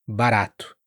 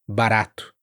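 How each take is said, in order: No difference in how they are said.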